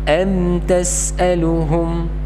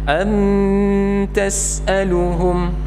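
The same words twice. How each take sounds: First: The m has only a light, natural nasal sound. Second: The m is held with a forced, exaggerated nasal sound. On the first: The speaker calls it right. "Tapi yang benar adalah" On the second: The speaker calls it wrong. "Jadi jangan dipaksakan. ... Nah ini keliru"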